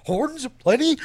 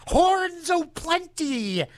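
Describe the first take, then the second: First: Said in the usual way. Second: High, slow sing-song; hammed up. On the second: DJ hyping horns in a high, slow sing-song. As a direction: stretch it out like a carnival barker.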